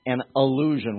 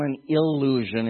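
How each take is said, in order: First: ALLUSION starting on an "uh" vowel, not "ih". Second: ILLUSION with a clear short "ih" first vowel. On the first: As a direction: open ALLUSION with the A sound. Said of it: "with an A". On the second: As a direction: stress the opening "ih" of ILLUSION. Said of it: "It's not an I". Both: Shown as a demonstration.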